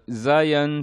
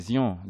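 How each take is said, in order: First: The name is pronounced the English way. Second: The name is pronounced the French way. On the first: "c'est plus, euh, on va dire quoi, la prononciation anglaise" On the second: "sinon c'est Zion, c'est Zion à la base"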